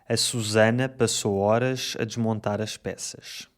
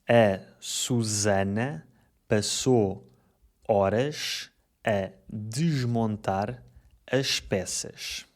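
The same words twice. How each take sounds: First: The sentence is spoken fast. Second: The sentence is spoken slowly.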